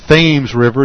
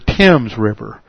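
First: Thames is said the local Massachusetts way. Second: Thames is said the way it is in England. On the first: This is the name as used locally in Massachusetts. The speaker calls it wrong. "folks around here don't pronounce them the same way" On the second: This is the name as used in England. The speaker calls it right. "instead of the Thames River"

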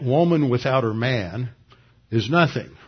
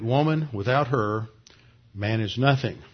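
First: There is no pause right after 'her'. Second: There is a pause right after 'her'.

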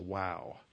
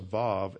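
First: It begins with a W sound. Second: It begins with a V sound. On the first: The speaker calls it wrong. "and not as a Wow" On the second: The speaker calls it right. "they always pronounce this as a Vav"

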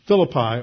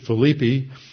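First: The name has its usual English pronunciation. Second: The name has a Greek-style pronunciation.

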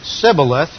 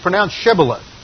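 First: The word begins with a plain s sound. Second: The word begins with a sh sound. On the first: The speaker calls it wrong. "without pronouncing the SH correctly" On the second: The speaker calls it right.

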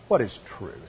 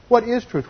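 First: It sounds like a sarcastic, dismissive question. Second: It sounds like a sincere, curious question.

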